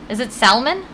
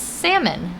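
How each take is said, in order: First: "salmon" with a clear L, SAL-mun. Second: "salmon" with silent L, SAM-un; salmon as heard. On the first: Streamer questions her own way, L sounded in salmon. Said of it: "the way I heard it pronounced". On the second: Streamer shows chat how she heard it, salmon with silent L. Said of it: "That's the way I heard it pronounced". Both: Shown as a demonstration.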